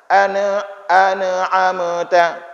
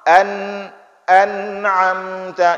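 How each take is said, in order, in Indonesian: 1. Ada vokal tambahan setelah bunyi n. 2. Bunyi n ditahan tanpa vokal. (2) "ditahan suara"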